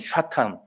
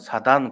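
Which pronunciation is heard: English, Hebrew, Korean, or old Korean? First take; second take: Hebrew; old Korean. First: It begins with sh, ending in tan. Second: It begins with s, ending in a soft dan. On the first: "히브리 말로는" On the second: "옛날에는"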